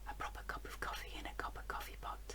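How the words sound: It is said in a soft whisper. "we'll start by whispering"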